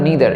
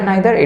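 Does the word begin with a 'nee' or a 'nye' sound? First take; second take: nee; nye. First: The first vowel sounds like 'ee'. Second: The first vowel sounds like 'eye'. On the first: This is the usual American pronunciation. "এই প্রোনাউন্সিয়েশনটা US বেশিরভাগ ক্ষেত্রে হয়ে থাকে" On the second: This is the usual British pronunciation. "আইদার নাইদার এটা আমরা ব্রিটিশে বেশি দেখতে পাই"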